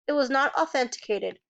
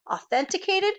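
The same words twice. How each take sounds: First: Said in the usual way. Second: Higher, disbelieving repeat of Authenticated; incredulous echo. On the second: Acted. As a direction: throw Authenticated back at her. Lawyer echoes in disbelief.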